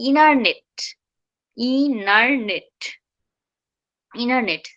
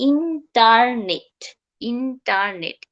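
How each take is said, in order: First: ইনারনেট as "ee-nar-net", T becomes N; vanishing T. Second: ইন্টারনেট as "in-tar-net", middle T sounded; T pronounced. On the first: Teacher modelling how it should be, vanished T. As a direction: drop the middle T in ইনারনেট. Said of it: "টিটা এন হয়ে যাবে". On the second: Teacher showing the form to avoid, sounded T. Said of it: "ইন্টারনেট কখনোই হবে না". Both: Shown as a demonstration.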